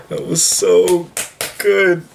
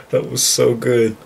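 First: Higher, louder, slow gushing repeat; more emotional. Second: Emotional. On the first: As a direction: stretch out the so. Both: Real, not acted. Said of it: "I gotta stop getting emotional".

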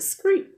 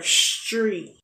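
First: "scream" said as "skree", with SKR for STR; mispronounced STR sound. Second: "street" said slowly with a clear STR; careful STR pronunciation. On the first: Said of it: "I would like to say the word". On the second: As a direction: take your time forming the STR in "street". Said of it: "take my time and form my tongue". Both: Shown as a demonstration.

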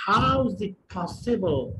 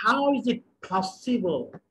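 First: Said in the usual way. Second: Drawn-out, very slow teaching delivery; slow model sentence. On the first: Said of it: "repeat at a more natural speed". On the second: Shown as a demonstration. Teacher modelling the sentence very slowly for students. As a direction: say it slowly for learners to copy. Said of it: "teacher models sentence slowly".

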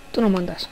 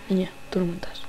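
First: Said in the usual way. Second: Unvoiced, softer menacing whisper. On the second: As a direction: breathe it into her ear. Repeats it whispered. (susurro amenazante)

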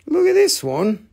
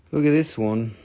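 First: High-pitched, rising invitation; high show-off. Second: Very low-pitched invitation; low show-off. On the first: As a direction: pipe it up with a lift at the end. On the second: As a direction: point it out deep and low. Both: Pretend. Shows a piece in two voices.

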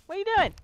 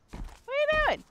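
First: Loud, high shout of the question; jeering shout. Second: Very high, stretched falsetto question; squeaky falsetto jeer. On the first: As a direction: bellow it at him. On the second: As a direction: squeak it way up high to mock him. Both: Acted. Repeated jeer at the monster.

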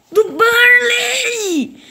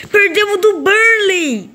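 First: High, very slow crying shout; anguished shout. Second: High, slow outraged cry; outraged wail. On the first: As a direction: wail it like a fresh wound. Repete a derrota gritando. (grito choroso e muito arrastado) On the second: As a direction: drag it out in disbelief. Derrota absurda no jogo. (lamento indignado e arrastado) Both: Real, not acted.

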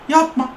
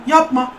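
No difference in how they are said.

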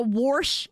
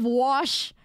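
First: Warsh with an r slipped into wash; Midwestern-style warsh, rhotic vowel; regional WARSH. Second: Said in the usual way. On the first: Shown as a demonstration. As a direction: say warsh, r before the sh. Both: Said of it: "warsh instead of wash".

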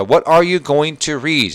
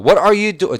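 First: Very slow, louder model read; slow second reading. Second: First take. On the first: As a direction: read it again slowly for the class. (천천히 다시 읽기) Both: Shown as a demonstration. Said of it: "두 번째 읽어볼게요".

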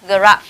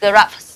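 First: GRAPH ending on a voiceless f; "graph" closed with f alone; final f sound. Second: GRAPHS with hissed s after the f; "graphs" finishing in an fs hiss; final s added. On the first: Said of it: "được phát âm thành âm". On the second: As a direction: end "graphs" on voiceless fs. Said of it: "ở đây thêm S". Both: Shown as a demonstration.

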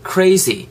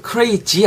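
First: "crazy" with a true buzzing z; buzzed z. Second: "crazy" with a hard j for the z; mispronounced z. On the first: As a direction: say "crazy" as "cray-zee", never "cray-jee". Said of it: "Z 뒷부분에 Z 발음이거든요". ("crazy"의 z를 진동하는 [z]로 발음) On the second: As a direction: say "crazy" as "cray-jee", Korean-style. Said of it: "crazy 하지 마시고 crazy". ("crazy"의 z를 '지'로 발음) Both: Shown as a demonstration.

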